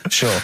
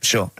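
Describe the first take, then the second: First: Whispered nervous agreement. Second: Said in the usual way. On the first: Retold or imitated. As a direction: mutter it under the breath, scared. Mocking gangster agreeing.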